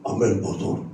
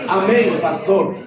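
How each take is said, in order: First: Low, rough, bashful man-like "Amén, pastor"; much lower timid mock man's voice; deep mannish voice. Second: A hint of a feminine voice; gently imitating her new voice; transformed voice. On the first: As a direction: imitate a shy woman with a deep rough voice. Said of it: "la voz era así, ronca, fuerte, de hombre". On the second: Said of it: "con la voz transformada".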